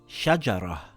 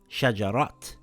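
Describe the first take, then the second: First: The word ends with an h sound. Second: The word ends with a t sound. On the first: The speaker calls it right. "this word reads shajarah" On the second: The speaker calls it wrong. "and not shajarat"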